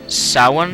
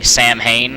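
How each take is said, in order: First: It is said with a W in the middle. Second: It is said with an H in the middle. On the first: The speaker calls it right. "that's the most correct pronunciation that I could guess" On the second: The speaker calls it wrong. "what I was previously calling Sam Hain, because I'm American and we're silly like that"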